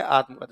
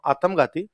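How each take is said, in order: First: आत्मघाती with every sound pronounced clearly; correct pronunciation. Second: आत्मघाती as the learner says it, sounds swallowed; wrong pronunciation. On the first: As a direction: say आत्मघाती the standard way. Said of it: "और ये है". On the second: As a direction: mimic the old mistaken आत्मघाती. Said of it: "अच्छा मैं बोलता हूँ". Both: Shown as a demonstration.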